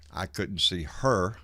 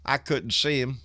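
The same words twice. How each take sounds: First: Slow, lower, landing on a drawn-out "her"; stress on "her". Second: Said in the usual way. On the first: Real, not acted. Host correcting the dog's sex, stress on "her". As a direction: correct yourself with weight on "her".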